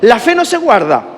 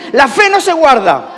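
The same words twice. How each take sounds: First: It is said with low energy. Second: It is said with high energy.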